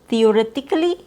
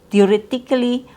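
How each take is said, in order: Both takes have the same delivery.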